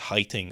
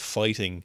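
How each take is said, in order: First: It is said in a Korean accent. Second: It is said in a plain English accent.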